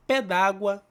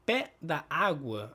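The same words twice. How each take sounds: First: "pé d'água" said as two syllables run together, daɡwɐ; "pé d'água" fused, no break before água; correct form. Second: "Pé da água" spelled out slowly, da then água; "Pé da água" with every word kept apart; separated form. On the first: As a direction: elide the vowel: "pé d'água". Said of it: "O certo aqui é pé d'água". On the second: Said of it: "aí você tem outro sentido". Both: Shown as a demonstration.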